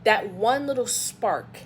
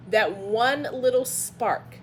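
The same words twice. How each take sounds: The two takes are said the same way.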